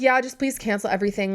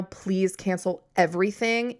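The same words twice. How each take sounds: First: Said in the usual way. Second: Slowed down, each word weighted, on everything; slow, firm repeat. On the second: Retold or imitated. Repeating her demand firmly to the salesman, slow and deliberate. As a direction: spell it out slowly, no more arguing.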